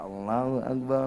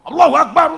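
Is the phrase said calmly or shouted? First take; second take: calmly; shouted. First: The phrase is said softly and calmly. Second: The phrase is shouted loudly and forcefully. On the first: It sounds like a relaxed, gentle style of chanting. The speaker calls it right. "santai aja" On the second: It sounds like a harsh, militant style of chanting. The speaker calls it wrong. "terlalu bengok-bengok"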